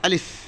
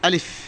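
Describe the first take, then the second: No difference in how they are said.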